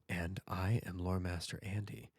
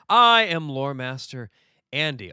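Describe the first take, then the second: First: It is said in a quiet, laid-back voice. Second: It is said in his normal voice.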